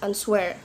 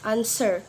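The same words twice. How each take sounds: First: The W sound in the middle is sounded. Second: The W sound in the middle is silent. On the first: The speaker calls it wrong. "we not pronounce ans answer" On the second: The speaker calls it right. "but we pronounce answer"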